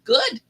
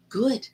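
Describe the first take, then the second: First: A much higher, louder, delighted good; gleeful high good. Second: Said in the usual way. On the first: Retold or imitated. To the fifth grader who says she scares him, a gleeful high good. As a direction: toss it up high like a playful threat. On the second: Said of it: "And I said".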